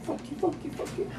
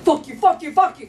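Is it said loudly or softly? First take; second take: softly; loudly. First: It is said softly. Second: It is shouted loudly.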